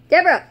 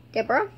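First: "Deborah" shouted high and falling; loud, sharp play-acted holler; shouted call. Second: "Deborah" with a rising questioning end; "Deborah" as an unsure question; questioning call. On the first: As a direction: yell the name to rouse a friend. Shouting to rouse her. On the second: Pretend. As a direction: ask "Deborah" tentatively, voice lifting at the end. Checking whether she responds.

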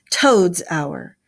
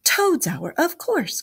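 First: Firm, weighty falling tone; grave declaration. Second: High, delighted exclamation. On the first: The badger corrects the rat, gravely firm. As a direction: pronounce it solemnly and decisively. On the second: The mole catches on to the badger's meaning, delightedly. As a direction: pipe up with happy realisation. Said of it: "cried the mole delightedly". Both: A narrator's reading.

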